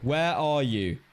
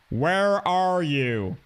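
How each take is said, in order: First: It is said in a British accent. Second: It is said in an American accent.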